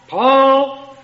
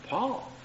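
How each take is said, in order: First: It is called sharply and with annoyance. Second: It is called calmly and casually.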